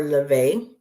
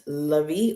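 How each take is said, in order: First: "Levy" said as luh-VAY; second pronunciation. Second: "Levy" said as luh-VEE; first pronunciation. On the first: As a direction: end "Levy" on a stressed ay. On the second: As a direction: end "Levy" on a long ee, stressed. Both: Shown as a demonstration. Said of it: "not sure if it's pronounced".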